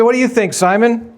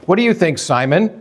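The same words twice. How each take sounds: First: Lifted, higher searching question; Jesus asking Simon, pitched up. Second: Said in the usual way. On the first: Shown as a demonstration. Jesus turning to Simon, asking in a higher voice. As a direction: raise the pitch and ask Simon warmly. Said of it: "Jesus said". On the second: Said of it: "Jesus spoke to him first, saying".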